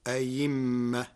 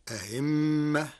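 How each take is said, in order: First: أيمة with a clear y for the second hamza; hamza turned to ya. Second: أهمة with the second hamza softened toward a y; eased second hamza. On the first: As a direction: say a-yimma in أيمة, holding the m. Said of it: "وإبدالها ياء". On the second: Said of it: "بتسهيل الهمزة الثانية". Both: Shown as a demonstration.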